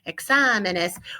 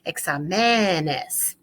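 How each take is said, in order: First: The stress is on the third-to-last syllable. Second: The stress is on the second-to-last syllable. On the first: The speaker calls it right. "that's when we need to add the accent on the A" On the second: The speaker calls it wrong. "if we didn't put an accent here, we would be pronouncing this examenes"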